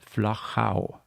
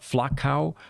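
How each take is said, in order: First: It is said with an Austrian German pronunciation. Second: It is said with an English-speaking pronunciation. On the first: The speaker calls it right. "the German and the Austrian pronunciation" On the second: The speaker calls it wrong. "it is not Flachau"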